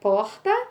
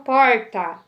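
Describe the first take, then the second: First: It is said with the softer Bahia R. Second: It is said with a strong São Paulo R.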